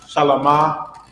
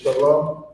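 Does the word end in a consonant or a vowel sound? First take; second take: vowel; consonant. First: The word ends with an added 'ah' vowel. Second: The word ends on the consonant 'm'. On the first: The speaker calls it wrong. "you see how it's not a ah at the end of shalom? ... shalom is not shalama" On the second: The speaker calls it right. "but it's shalom"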